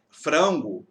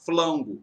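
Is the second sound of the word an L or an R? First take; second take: R; L. First: The word is said with an R sound. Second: The word is said with an L sound. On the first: "ele vai conseguir pronunciar o R" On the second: "de modo geral ele vai falar flango"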